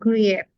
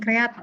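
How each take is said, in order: First: The word is read without a plain 'a' vowel. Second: The word is read with a plain 'a' vowel. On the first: The speaker calls it right. "tapi create ya" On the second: The speaker calls it wrong. "Jadi pakai a, create"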